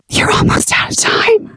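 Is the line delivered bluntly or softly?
softly. The line is said in a soft, subtle way. The speaker calls it right. "we need to make it soft and subtle"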